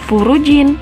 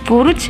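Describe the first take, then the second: First: The word ends with an added syllable. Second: The word stops on its final consonant. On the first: The speaker calls it wrong. "Bukan furujin" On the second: The speaker calls it right. "tapi dibaca furuj"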